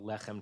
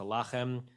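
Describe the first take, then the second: First: The first vowel sounds like 'e'. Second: The first vowel sounds like 'a'. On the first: This is the ordinary form of the word. "lechem turns to lachem" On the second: This is the form used at a pause in the verse. "It's a pausal"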